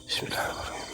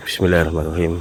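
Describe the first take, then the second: First: Barely voiced basmala under the breath; whispered prayer. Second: Said in the usual way. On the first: Real, not acted. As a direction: whisper the bismillah to yourself. Whispered prayer before walking on. (bismillah dibisikkan pelan)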